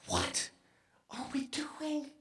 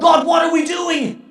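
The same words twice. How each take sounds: First: Hushed question. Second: Loud, high cry to God; anguished cry. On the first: Prays quietly, then repeats aloud. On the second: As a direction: shout the question at heaven. Prayer repeated as a cry. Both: Real, not acted.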